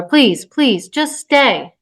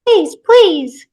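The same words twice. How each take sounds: First: Mildly urgent plea, rising on the end; pleading. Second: High, loud squeaky plea; toy echo. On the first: Woman begs the toddler to stay, pleading. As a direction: beg a small child. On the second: Toy mimics the pleading mother, squeaky echo. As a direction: parrot the begging like a talking toy. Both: Acted.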